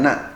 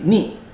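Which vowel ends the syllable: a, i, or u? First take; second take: a; i. First: The syllable ends with an a vowel. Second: The syllable ends with an i vowel. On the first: The speaker calls it wrong. "bukan na" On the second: The speaker calls it right. "dengan kasrah, berarti ni"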